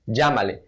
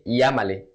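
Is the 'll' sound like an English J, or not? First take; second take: J; not J. First: The 'll' is pronounced like an English J. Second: The 'll' is not pronounced like an English J. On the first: The speaker calls it right. "with the J pronunciation" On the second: The speaker calls it wrong. "We don't say llámale"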